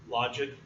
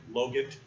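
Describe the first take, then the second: First: First syllable of logit like "lodge"; logit pronounced LAH-jit. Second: Logit with long o, hard g; g in logit hard as in "get"; logit pronounced LOH-git. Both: Shown as a demonstration. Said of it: "How do you pronounce that?".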